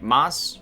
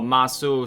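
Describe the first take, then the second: First: The final u vowel is dropped. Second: The final u vowel is pronounced. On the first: The speaker calls it right. "that would be more like mas" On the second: The speaker calls it wrong. "So masu"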